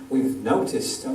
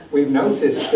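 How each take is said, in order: First: Said in the usual way. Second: Half-hearted mock American accent; reluctant, jokey stab at American; attempted American accent. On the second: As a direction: lightly try on an American accent. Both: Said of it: "do I have to do an American accent".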